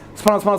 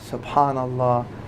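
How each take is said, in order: First: It is said fast and mechanically. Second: It is said slowly and audibly.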